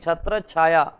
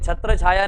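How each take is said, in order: First: The 'chh' before 'chhaya' is said doubled. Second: The 'chh' before 'chhaya' is said single. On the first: The speaker calls it right. "यहाँ पे आधा चा का प्रयोग करेंगे" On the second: The speaker calls it wrong. "नहीं"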